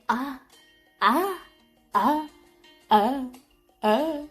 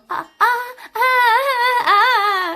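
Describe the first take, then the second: First: It imitates No-Face's voice. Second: It is said as a moan.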